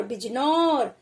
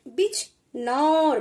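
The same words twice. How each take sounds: First: Said in the usual way. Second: बिजनौर spoken slowly, syllables apart; slow teacher demo; slowly sounded. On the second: Shown as a demonstration. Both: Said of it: "थोड़ा जल्दी लेंगे".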